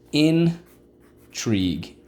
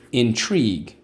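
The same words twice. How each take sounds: First: Slow stretched. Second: Said in the usual way. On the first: Shown as a demonstration. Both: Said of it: "Let's go".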